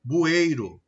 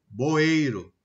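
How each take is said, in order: First: Said in the usual way. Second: "boeiro" with o for the u of bueiro; "boeiro", first vowel changed to o; substituted-sound mispronunciation. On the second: Shown as a demonstration. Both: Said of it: "estou mudando".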